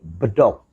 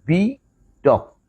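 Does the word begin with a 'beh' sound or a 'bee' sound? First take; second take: beh; bee. First: The first vowel is a short, open 'e' sound. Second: The first vowel is a long 'ee' sound. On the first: This is how local Sundanese speakers say it. "diucapkan oleh orang Sunda" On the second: This is how it would be said in English. "kalau dengan mengucapkan dengan bahasa Inggris"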